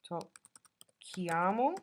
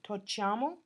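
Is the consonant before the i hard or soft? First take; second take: hard; soft. First: The double consonant has a hard k sound. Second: The double consonant has a soft ch sound. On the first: The speaker calls it right. "so we need to add the H" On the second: The speaker calls it wrong. "otherwise it would be tocciamo"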